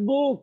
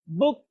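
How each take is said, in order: First: "book" with a drawn-out oo; wrongly long vowel. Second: "book" with a brief oo; short vowel. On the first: Teacher shows pupils what to avoid, long vowel. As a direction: stretch the vowel in "book" as the mistake. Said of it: "not book". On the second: Teacher models short u for pupils, short vowel. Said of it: "একেবারে short". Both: Shown as a demonstration.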